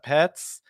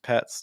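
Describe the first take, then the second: First: The pitch rises very high and sharply. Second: The pitch rises only slightly and softly. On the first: The speaker calls it wrong. "it doesn't have to go like crazy like pets" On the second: The speaker calls it right. "Just a very light rising intonation at the end"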